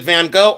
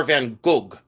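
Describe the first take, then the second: First: Gogh said as "go"; usual American pronunciation. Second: Gogh said as "goog", hard g at the end; other people's pronunciation. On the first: Shown as a demonstration. Seller asking which is right, Gogh as "go". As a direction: leave Gogh open, like the word "go". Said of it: "I've always heard Van Gogh". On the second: Retold or imitated. Seller asking about others' version, Gogh as "goog". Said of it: "They say Van Gogh".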